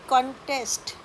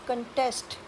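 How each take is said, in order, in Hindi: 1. Stress पहले syllable पर है। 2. स्ट्रेस दूसरे सिलेबल पर है। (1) "ये होगा नाउन।" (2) "तो यहाँ पर स्ट्रेस आती है टेस्ट पर"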